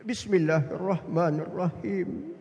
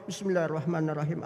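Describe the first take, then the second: First: Slow, low, reverent recitation; unhurried melodic prayer; devout recitation. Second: Rapid, low run-through; mock someone rattling off memorised prayer; hurried autopilot recitation; rote recitation. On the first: Retold or imitated. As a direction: imitate an absorbed worshipper, drawing out each word. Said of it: "Nangis dia". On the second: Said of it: "Karena hafal, jalan dia".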